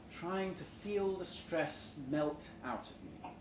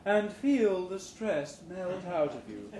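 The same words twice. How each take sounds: First: Said in the usual way. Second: Slow, soothing, stressing feel; soothing trainer. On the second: Acted. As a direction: lull them into relaxing. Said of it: "the new hire trainer's voice says soothingly".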